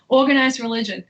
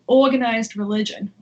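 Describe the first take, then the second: First: It is said without the New York accent. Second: It is said with a slight New York accent.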